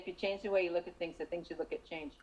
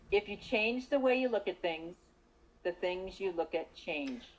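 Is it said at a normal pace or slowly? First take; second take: normal; slowly. First: It is said at a normal pace. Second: It is said slowly.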